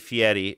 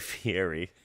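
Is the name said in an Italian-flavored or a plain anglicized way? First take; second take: Italian-flavored; plain. First: The name is said with a more Italian flourish. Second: The name is said in a plain, anglicized way. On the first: The speaker calls it right. "You're supposed to say Fieri" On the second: The speaker calls it wrong. "I grew up saying Guy Fieri"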